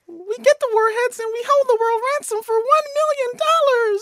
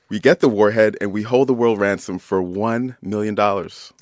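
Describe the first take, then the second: First: It is said in a high Minnie Mouse voice. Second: It is said in a normal voice.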